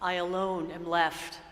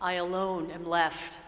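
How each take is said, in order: First: It is said in a sad, defeated tone. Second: The same.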